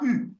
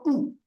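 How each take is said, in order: First: It is a rounded front vowel, French u. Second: It is a rounded back vowel, like 'oo'. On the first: This is the French reading of the letter. The speaker calls it wrong. "en français, on prononce ça U" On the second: This is the reading used in this language. The speaker calls it right. "c'est plutôt OU"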